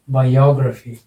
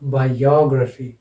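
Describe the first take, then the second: First: The stress falls on the 'o' syllable. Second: The same.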